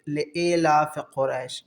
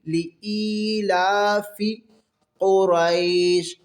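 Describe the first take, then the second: First: It starts with 'lay' and ends in 'laf'. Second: It starts with 'lee', with a drawn-out 'laa-fee'. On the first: The speaker calls it wrong. "नहीं, गलत है" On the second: The speaker calls it right. "लंबा करके ली ई ला"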